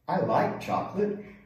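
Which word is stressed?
like. The stress is on like.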